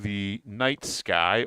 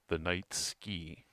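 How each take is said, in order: First: The last word rhymes with 'high'. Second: The last word rhymes with 'see'. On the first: The speaker calls it right. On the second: The speaker calls it wrong.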